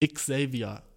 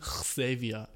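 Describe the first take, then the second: First: Xavier opening with a crisp ks. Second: Xavier opening on a rasped kh; mock mispronounced Xavier, starting kh; wrong throaty X. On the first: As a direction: say Xavier as Iks-avier, k-s first. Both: Shown as a demonstration. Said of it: "Nicht Xavier".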